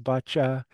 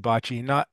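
First: The word is said in a French accent. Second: The word is said in a North American accent. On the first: "maybe a French accent is boccia" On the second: "in North America we say bocce"

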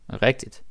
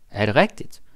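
First: It is said in a subdued, low-key way. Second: It is said with normal, lively energy.

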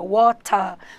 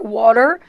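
First: It is said in a British accent. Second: It is said in an American accent. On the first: "o britânico fala" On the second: "o americano fala"

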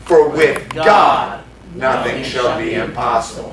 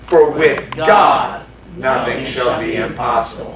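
First: The word God is stressed. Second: The word God is stressed.

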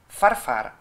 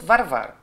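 First: The name is said with voiceless F sounds. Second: The name is said with voiced V sounds. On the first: "вместо «в» такое «ф» приглушённое" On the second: "Меня зовут Варвара"

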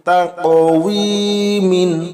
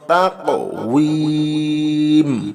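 First: The word ends with an added '-in' sound. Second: The word stops short on a final 'm'. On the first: The reading continues without stopping. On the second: The reader stops on this word.

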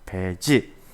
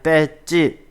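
First: The first consonant is plain and soft. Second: The first consonant is tense and strong. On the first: This is the standard loanword form. The speaker calls it right. "강하게 발음 안 하고 그냥 배지라고 씁니다" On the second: This is the everyday colloquial form. The speaker calls it wrong. "우리가 강하게 뺐지 이렇게 일상생활에서도 많이 쓰죠"

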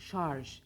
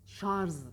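First: The word ends with a soft zh sound. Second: The word ends with a buzzing z sound. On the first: The speaker calls it right. "Ş, A, R ve J harflerinden oluşuyor" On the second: The speaker calls it wrong. "Z ile bitiriliyor"

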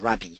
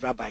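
First: It is said a less familiar, different way. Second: It is said the familiar English way. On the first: "the actual pronunciation is" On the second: "as we call it"

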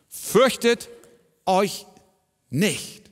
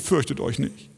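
First: It is said firmly, as a stern order. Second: It is said softly, as a gentle plea. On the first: It is an order that must be obeyed. "Es ist ein Imperativ. ... Es ist ein Befehl" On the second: It is a kind request. "Das ist nicht eine liebe Bitte"

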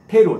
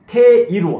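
First: The 'i' sound after 'te' is dropped. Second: The 'i' sound after 'te' is pronounced. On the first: It sounds like natural everyday speech. The speaker calls it right. "구어에서는 이 발음을 과감하게 생략해 주세요" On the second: It sounds like textbook language. The speaker calls it wrong. "테이루 하면 아주 불편합니다"

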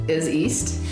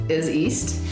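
Both takes have the same delivery.

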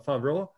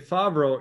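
First: The name is pronounced the original European way. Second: The name is pronounced the familiar American way. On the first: "the European way you pronounce it would actually be more like" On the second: "if you say Favro, it sounds like, you know, like John Favro"

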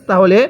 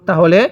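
The two takes are said the same way.

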